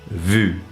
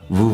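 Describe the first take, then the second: First: The vowel is a front rounded 'u' sound. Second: The vowel is a back rounded 'oo' sound. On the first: The speaker calls it wrong. "that is often pronounced as vu" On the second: The speaker calls it right. "we have vous for vous voyez"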